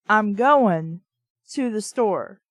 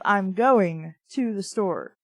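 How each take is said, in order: First: I'm goin' to the store, the G of going dropped. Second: Said in the usual way. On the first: Shown as a demonstration. Demonstrating a Southern writer's dropped G. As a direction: drop the G on goin'. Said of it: "So, like". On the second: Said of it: "instead of".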